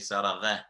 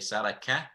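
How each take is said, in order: First: The last consonant is a rasping gh sound. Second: The last consonant is a plain k sound. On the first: "it should not be mixed with Ghain. So we shouldn't say Saragha" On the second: "Qaf should not be mixed with Kaf. So we shouldn't say Saraka"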